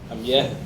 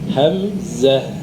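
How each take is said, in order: First: The middle consonant is a y sound. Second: The middle consonant is a z sound. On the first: The speaker calls it wrong. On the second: The speaker calls it right.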